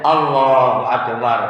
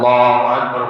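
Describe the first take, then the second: First: It is said calmly, followed by a pause. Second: It is said hurriedly, rushing on.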